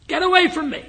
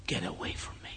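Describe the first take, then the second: First: High, loud strained cry; retold cry with all his strength. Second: Breathless whisper, barely voiced; retold whisper. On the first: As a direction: force it out with the last of his strength. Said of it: "he mustered all the strength". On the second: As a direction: breathe the words out like a dying man. Dying man rejects the pastor.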